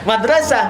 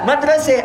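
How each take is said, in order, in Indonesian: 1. Vokal terakhirnya adalah a terbuka. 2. Vokal terakhirnya adalah bunyi e.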